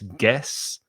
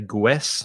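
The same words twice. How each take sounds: First: No 'w' sound follows the g. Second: A 'w' sound follows the g. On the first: The speaker calls it right. "No U sound" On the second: The speaker calls it wrong. "sometimes I hear Spanish speakers try to say"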